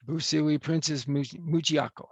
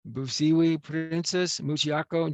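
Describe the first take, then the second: First: Busiwi Princess Muchiako tried with care; careful go at the name; attempted name. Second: Busiwi Princess Muchiako, slow and deliberate; careful name. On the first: Officiant trying the bride's name again, careful. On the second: Officiant opening the vows, name said slowly. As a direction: say each part of the name slowly. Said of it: "slow careful name". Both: Shown as a demonstration.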